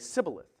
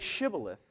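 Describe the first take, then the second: First: The word begins with an 's' sound. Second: The word begins with a 'sh' sound. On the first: The speaker is from Ephraim. The speaker calls it wrong. "an Ephraimite would say Sibboleth. They couldn't pronounce that S H" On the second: The speaker is from Gilead. The speaker calls it right. "Say Shibboleth"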